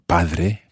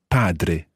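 First: The d is soft and light. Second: The d is strong and firm. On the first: The speaker calls it wrong. "don't let that Spanish D influence your Italian. It's not padre" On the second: The speaker calls it right. "it's a strong D in there"

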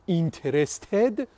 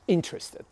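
First: The stress is on a later syllable. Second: The stress is on the first syllable. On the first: The speaker calls it wrong. "Interested is not correct" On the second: The speaker calls it right. "The stress is on the first syllable"

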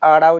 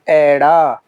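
First: The first vowel is a long 'aa'. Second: The first vowel is an 'ai' sound. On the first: The speaker calls it wrong. "ਬਹੁਤ ਸਾਰੇ ਸਾਥੀ ਇਸ ਨੂੰ ਆੜਾ ਉਚਾਰਦੇ ਹਨ, ਪਰ ਅਜਿਹਾ ਨਹੀਂ ਹੈ।" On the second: The speaker calls it right. "ਇਸ ਦਾ ਸ਼ੁੱਧ ਉਚਾਰਨ ਹੈ ਐੜਾ।"

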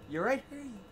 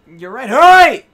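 First: Hurry is said with milder, lighter emphasis. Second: Hurry is said with strong, forceful emphasis.

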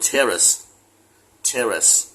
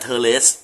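First: It is said the standard English way. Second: It is said the way Thai speakers read it. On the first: The speaker calls it right. "แต่ที่ถูกก็คือ" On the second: The speaker calls it wrong. "คนไทยอ่าน"

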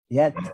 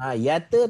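First: The t ends cleanly with a puff of breath. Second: The t bounces into an added vowel sound. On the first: The speaker calls it right. "Kita nak yat. Yat, lepaskan angin" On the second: The speaker calls it wrong. "pastikan ta tidak ada lantunan. Jangan baca yata ba'u. Yata tak nak"

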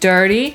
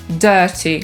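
First: The first vowel has an r sound. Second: The first vowel has no r sound.

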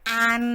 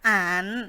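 First: The syllable is said in Mandarin first tone. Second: The syllable is said in Mandarin third tone. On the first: "ตีอีก็คำที่หนึ่งนะคะ" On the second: "ตีซานเกะตัวที่สามนะคะ"

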